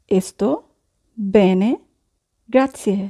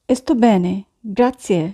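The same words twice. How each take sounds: First: "Sto", "bene", "grazie" each set apart by long pauses; slow dictation with pauses; word by word. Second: Said in the usual way. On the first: Shown as a demonstration. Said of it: "teacher repeats word by word". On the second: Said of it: "teacher models phrase".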